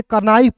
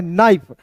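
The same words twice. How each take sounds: First: कनाइफ with the K sounded, "ka-naif"; mispronounced knife. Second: नाइफ with a silent K; correct knife pronunciation. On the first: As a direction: say कनाइफ with क before न. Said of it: "कनाइफ क्यों नहीं पढ़ना है". (कनाइफ में क बोलकर गलत उच्चारण) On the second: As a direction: start नाइफ straight on न. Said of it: "के जो है साइलेंट हो जाएगा". (नाइफ में क silent) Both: Shown as a demonstration.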